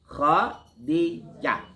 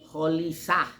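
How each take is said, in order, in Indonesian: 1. Nama itu diucapkan dengan d dan j. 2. Nama itu diucapkan dengan l dan s. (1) "Tapi Khadijah" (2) "Ada lagi Kholisah. Salah itu. Makin salah"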